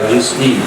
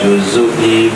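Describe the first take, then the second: First: No vowel follows the z sound. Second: A short u vowel follows the z sound. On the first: The speaker calls it wrong. "bukan ala juz'i" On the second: The speaker calls it right. "membariskan huruf zai pakai dhamma"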